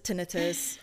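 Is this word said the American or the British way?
British. The word is said the British way. "Brits pronounce it tinnitus"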